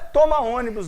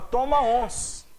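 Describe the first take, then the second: First: The last word is said fully, with three syllables. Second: The last word is squeezed into one short syllable. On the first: The speaker calls it wrong. "não é toma ônibus" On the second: The speaker calls it right. "é toma ons"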